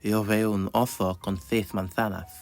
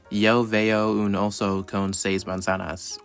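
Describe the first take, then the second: First: It is said in a regional Spanish dialect. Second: It is said with an English-speaker accent. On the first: This is how a local dialect says it. "it doesn't account for dialects, you'll never hear it as" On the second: A non-native learner says it this way. "like an English speaker saying"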